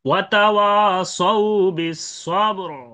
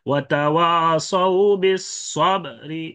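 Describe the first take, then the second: First: The phrase ends on the consonant with no vowel. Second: A faint short i is heard after the r. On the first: "রা সাকিন" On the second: "রুমটা হা- হালকা উচ্চারণ হয়"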